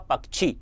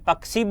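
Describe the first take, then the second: First: The middle cluster is said in standard form. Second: The middle cluster is said as plain ks. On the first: The speaker calls it right. "शुद्ध अर्थ में यदि हम इसका उच्चारण करेंगे" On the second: The speaker calls it wrong. "कोई उसे कस यानी पक्षी बोल देता है"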